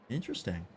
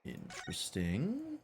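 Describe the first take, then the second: First: Said in the usual way. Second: Slow, much softer "Interesting" with a rising end; hushed intrigue. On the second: Acted. Detective eyeing the box, slow and hushed. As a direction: draw out "Interesting" under the breath. Same word said twice.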